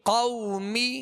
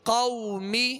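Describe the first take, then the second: No difference in how they are said.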